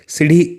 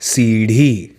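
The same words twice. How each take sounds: First: The vowels are pronounced short. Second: The vowels are pronounced long. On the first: The speaker calls it wrong. "ऐसा नहीं पढ़ेंगे" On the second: The speaker calls it right. "इसे पढ़ेंगे सीढ़ी"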